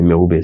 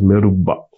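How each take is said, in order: First: The final vowel is an 'ay' sound. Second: The final vowel is an 'a' sound.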